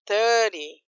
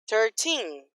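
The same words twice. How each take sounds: First: Thirty with THIR drawn out, weak TY; "thirty", strong start fading off; stress on THIR. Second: Put-on Thirteen with the final TEEN drawn out; "Thirteen", long stressed ending. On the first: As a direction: lean on the first syllable of "thirty". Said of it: "aqui eu prolongo ter". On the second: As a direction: lean on the second syllable of "Thirteen". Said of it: "aqui eu prolongo o tin". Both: Shown as a demonstration.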